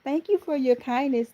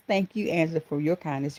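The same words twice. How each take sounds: First: High-pitched teasing imitation; Angela's catchphrase. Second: Said in the usual way. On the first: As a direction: lift it high, playfully mimicking a friend. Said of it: "She always said it".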